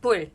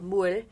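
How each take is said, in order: First: It is fast, starting with a B-like sound. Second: It is slow, starting with a clear M. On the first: "they'll say it really fast and it sounds like bul" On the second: "if you're saying it really slow"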